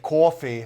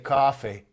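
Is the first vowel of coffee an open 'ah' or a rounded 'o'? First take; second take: rounded o; open ah. First: The first vowel is a rounded o sound. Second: The first vowel is an open American ah sound.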